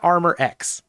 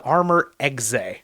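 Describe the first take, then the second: First: The second word sounds like the letter X. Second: The second word is not said as the letter X. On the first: The speaker calls it wrong. "it's not Armor X" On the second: The speaker calls it right. "in fact, it is Armor Exe"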